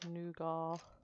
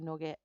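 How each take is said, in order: First: The first vowel sounds like 'new', ending 'gah'. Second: The first vowel sounds like 'nut', ending 'get'. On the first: It is how other, posher people say it. "Some people say it different" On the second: It is the local, non-posh way of saying it. "I'm not posh, so I say nugget"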